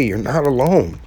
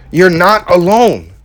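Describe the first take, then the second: First: Said in the usual way. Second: "You're not alone" slow, louder, every word leaned on; emphatic insistence. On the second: Real, not acted. Urging struggling viewers they aren't alone, slow emphatic.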